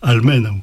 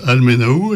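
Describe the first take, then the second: First: "almenau" with MEN stressed, au a short falling glide. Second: "almenau" with the weight on the last syllable; French mispronunciation. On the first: Teacher now saying the word alone correctly, stress on MEN. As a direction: hit MEN in "almenau", let au fall away. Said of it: "de prononcer tout seul". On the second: Teacher imitating French learners' mistake, misplaced stress. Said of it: "beaucoup de Français disent ankau". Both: Shown as a demonstration.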